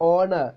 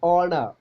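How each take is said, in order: The two takes are said the same way.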